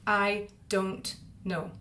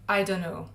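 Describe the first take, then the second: First: Each word is said separately with the T sound. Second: The T drops and the N sounds blend. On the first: The speaker calls it wrong. "pronounce it that way as three distinct words" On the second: The speaker calls it right. "In normal speech, I don't know sounds like"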